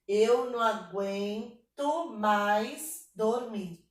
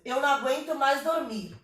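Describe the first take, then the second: First: Very slow, syllables drawn out and separated; syllable-by-syllable counting. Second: Flowing line of verse with a beat; rhythmic verse reading. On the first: Teacher checking the verse's syllable count, slow syllable-by-syllable reading. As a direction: stretch out every syllable of the line. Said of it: "vamos contar aqui". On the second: Teacher reading the poem to students, rhythmic reading. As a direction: read in rhythm at a natural pace. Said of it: "A gente lê com ritmo". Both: Shown as a demonstration.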